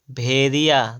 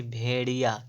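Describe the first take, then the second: First: "भेड़िया" slow, with dental r/d, bhediya; wrong middle sound. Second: "भेड़िया" softer, with retroflex ṛ; correct flap. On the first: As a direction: say "भेड़िया" slowly without the flap. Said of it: "भेड़िया नहीं". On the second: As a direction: curl the ṛ in "भेड़िया". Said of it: "शुद्ध देखिएगा". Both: Shown as a demonstration.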